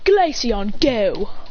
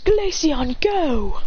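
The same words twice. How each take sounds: First: It is said in an attempted British accent. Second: It is said in the speaker's ordinary accent.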